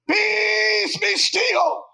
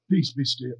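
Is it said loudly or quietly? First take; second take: loudly; quietly. First: It is said loudly and dramatically. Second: It is said quietly and calmly.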